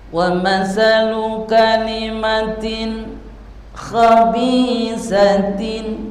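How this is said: There is a pause after kalimatin. The speaker calls it wrong. "Nah itu kan berarti ada jeda, yang namanya saktah"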